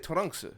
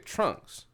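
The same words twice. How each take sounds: First: The name is said with Japanese-style pronunciation. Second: The name is said with English pronunciation. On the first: The speaker calls it wrong. "I don't say Trunks" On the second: The speaker calls it right. "I say Trunks"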